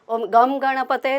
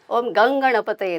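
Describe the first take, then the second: First: The nasal before ganapataye is a plain m sound. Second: The nasal before ganapataye is an ng sound. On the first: The speaker calls it wrong. "नाही" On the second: The speaker calls it right. "हा फरक आहे"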